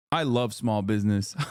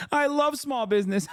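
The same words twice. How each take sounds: First: Said in the usual way. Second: High-pitched giddy squeal; mock-ecstatic fan, pitched way up; giddy delight. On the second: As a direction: gush it in a very high voice between giggles. Acted giddy delight, between laughs.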